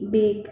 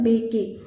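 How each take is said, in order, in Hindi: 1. शब्द k की आवाज़ पर खत्म होता है। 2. शब्द के अंत में एक अतिरिक्त e स्वर है। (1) "सिर्फ बेक बोलेंगे। ई साइलेंट हो जाएगा" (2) "अगर ये हम लोग ई को ऐड करके पढ़ते"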